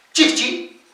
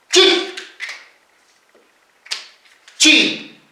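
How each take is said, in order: First: Said in the usual way. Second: "chi, chi" broken apart by a long pause; split into syllables. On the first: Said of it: "Cuando digo chichi". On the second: Shown as a demonstration. Teacher isolates the middle consonant for students, split syllable demo. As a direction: sound out "chi", stop, then "chi". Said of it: "Por eso les digo consonante intermedia".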